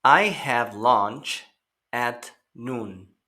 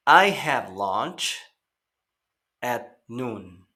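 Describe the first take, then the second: First: Slow, careful echo of the sentence; slow teacher model; slow repeat for learners. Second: Slow, careful "I have lunch at noon"; slow teacher model; slow model sentence. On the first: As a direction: give the class a slow repetition. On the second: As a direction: read it slowly to be repeated. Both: Shown as a demonstration. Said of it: "Recuerden escuchar y repetir".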